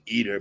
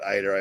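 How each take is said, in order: First: The name sounds like the English word 'eater'. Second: The name does not sound like 'eater'. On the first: This is how others pronounce the name. "They pronounce it Eater" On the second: This is the speaker's own habitual pronunciation. "but I call it Eiter. I always have"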